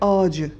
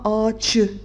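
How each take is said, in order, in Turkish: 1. Son ünlüden önceki ünsüz yumuşak c. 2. Son ünlüden önceki ünsüz sert ç. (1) "Ç sesi yumuşayarak C sesine dönüşüyor ve ağacı diyoruz" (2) "Biz buna ağaçı demiyoruz"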